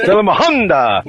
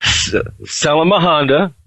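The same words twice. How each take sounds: First: "Sell 'em a Honda" pitched higher, sung out with a big preacher inflection falling on "Honda"; tongues with inflection. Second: Mock speaking in tongues. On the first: Guest copies the host's tongues demo, pitched high with inflection. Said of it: "And then you put inflection". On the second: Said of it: "Here, follow me". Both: Shown as a demonstration.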